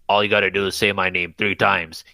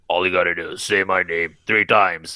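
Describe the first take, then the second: First: It is said in a higher, lighter voice. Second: It is said in a very deep voice.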